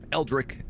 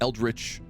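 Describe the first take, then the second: First: The word ends with a hard k sound. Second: The word ends with a ch sound. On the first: "Is Eldrick the right way to say it?" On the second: "Eldritch is the right way to say it"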